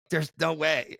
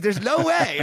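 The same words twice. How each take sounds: First: Said in the usual way. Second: Higher, louder disbelieving there's no way; laughing off his own price in disbelief; incredulous. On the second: Retold or imitated. Retelling his thirty grand quote to the host, higher incredulous.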